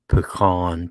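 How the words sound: Pecan is pronounced the Northern way. This is how outsiders from the North say it. The speaker calls it wrong. "she must be a, a Yankee, a Northerner. I guess y'all say pecan too"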